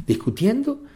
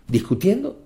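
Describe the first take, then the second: First: «Discutiendo» aún más agudo; emphatic rise. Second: «Discutiendo» lanzado muy agudo; emphatic rise. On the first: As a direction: sube «Discutiendo» al máximo. («Discutiendo» en tono muy alto) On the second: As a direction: eleva «Discutiendo» como reproche. («Discutiendo» en tono alto y enfático) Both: Acted. Rhetorical repetition in sermon.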